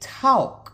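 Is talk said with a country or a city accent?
country. It is said with a country accent.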